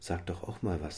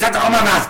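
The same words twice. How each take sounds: First: It is said in a mild, casual tone. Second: It is said in a harsh, commanding tone. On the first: A friendly nudge to speak up. "Aber eben nicht nur" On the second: An authoritarian order to speak up. "sondern jetzt sag doch auch mal was!"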